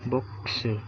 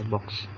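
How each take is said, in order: First: It is said with extra Japanese syllables ku and su. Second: It is said as one English syllable. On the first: "Tapi dibaca Jepangnya gini" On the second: "Box maksudnya kotak gitu ya"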